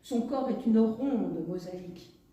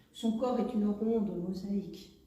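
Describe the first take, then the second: The two takes are said the same way.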